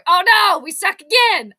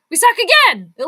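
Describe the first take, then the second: First: High, loud movie-quote wail; loud high despairing quote, hammed up; Waterboy movie quote. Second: High, loud cry of defeat; loud, higher wail of disgust; despairing yell. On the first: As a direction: belt out the famous Waterboy line. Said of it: "To quote the nineteen ninety-eight movie, The Waterboy". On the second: Real, not acted. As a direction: howl it at the screen. Outburst after bad play.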